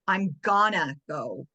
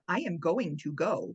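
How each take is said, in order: First: The words are contracted and reduced. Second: Every word is said fully and separately. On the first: It sounds like natural child speech. The speaker calls it right. "I'm gonna go, not" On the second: It sounds overly formal, like a professor. The speaker calls it wrong. "a three year old talking like a professor"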